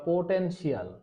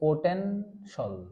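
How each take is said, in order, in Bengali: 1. শেষ অংশে দুটি ধ্বনি-ভাগ আছে, যেমন 'shee-al'। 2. শেষ অংশটা একটাই হালকা ধ্বনি-ভাগ, যেমন 'shul'।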